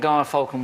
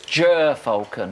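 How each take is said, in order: First: The first syllable sounds like 'guy'. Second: The first syllable sounds like 'jer'. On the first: The speaker calls it wrong. "I'm afraid you've mispronounced the bird" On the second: The speaker calls it right. "Susie Dent from Countdown has told us it's Ger falcon"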